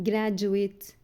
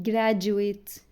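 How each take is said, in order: No difference in how they are said.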